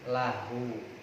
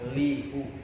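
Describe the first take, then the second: First: The first vowel is an 'a' sound. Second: The first vowel is an 'i' sound. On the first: The speaker calls it right. "Lahu dibaca lah, dibaca fathah" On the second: The speaker calls it wrong. "Enggak lihu, enggak"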